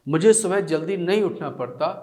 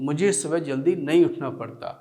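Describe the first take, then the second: No difference in how they are said.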